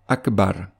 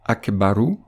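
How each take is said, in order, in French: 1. Le mot ne se termine pas par une voyelle. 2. Le mot se termine par une voyelle brève. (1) "cette voyelle est remplacée par un soukoun" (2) "tel qu'il doit être prononcé dans le cas d'une récitation continue"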